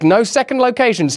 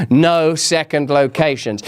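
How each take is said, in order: First: Said in the usual way. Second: "No second locations" low and slow; firm mock warning. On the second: Joking warning, repeated for emphasis.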